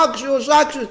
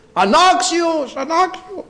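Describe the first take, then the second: First: Said in the usual way. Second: "Ανάξιος" cried much higher and slow, drawn out; mock acclaim of unworthy. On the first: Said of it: "Φωνάζουμε". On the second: Shown as a demonstration. Preacher showing the congregation how to cry unworthy, high slow chant. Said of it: "Έτσι πρέπει να φωνάζουμε".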